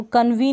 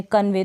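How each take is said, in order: First: कन्वी ending in "ee" instead of "ay"; wrong-reading demo, कन्वी with an ee ending; mispronounced final vowel. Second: Said in the usual way. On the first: Shown as a demonstration. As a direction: say कन्वी as "kan-vee". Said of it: "कन्वी नहीं पढ़ेंगे इसमें". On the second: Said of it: "ऐसे ही pronounce होगी".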